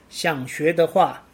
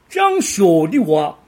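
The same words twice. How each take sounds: First: It is spoken in standard Mandarin. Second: It is spoken with a Sichuan accent. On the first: "首先是国语版。" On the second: "四川口音版："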